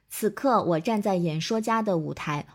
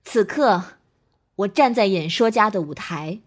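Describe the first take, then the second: First: Every syllable gets the same even length. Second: The rhythm varies, with emotional pauses between phrases. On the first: The speaker calls it wrong. "我们千万不要一字一句地去读，比如像这样" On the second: The speaker calls it right. "你会有合理的情绪停顿。……很有讲述感"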